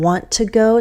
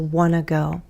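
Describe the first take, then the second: First: Each word of 'want to' is said fully. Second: 'Want to' is blended into 'wanna'. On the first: "I'm reducing want to go" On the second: "to want to go"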